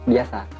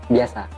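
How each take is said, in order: Both takes have the same delivery.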